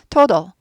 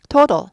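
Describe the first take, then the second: First: The second t is softened to a d. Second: The second t is softened to a d.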